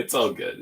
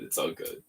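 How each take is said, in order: First: Said in the usual way. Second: "It's all good" breathed as a soft whisper. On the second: Real, not acted. Builder reassuring himself, whispered. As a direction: let it fade to a whisper.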